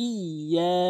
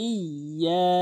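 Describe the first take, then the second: Both takes have the same delivery.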